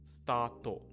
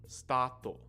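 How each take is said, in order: The two takes are said the same way.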